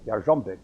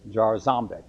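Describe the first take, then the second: First: "Jarzombek" the Polish way, with a Y start and zh; Polish pronunciation. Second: "Jarzombek" anglicized, z sounded as in zoo; anglicized pronunciation. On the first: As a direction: say "Jarzombek" as Yar-ZHOM-bek, Polish style. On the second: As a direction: say "Jarzombek" as Jar-ZOM-bek. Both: Shown as a demonstration. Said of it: "pronounce it like a Polish".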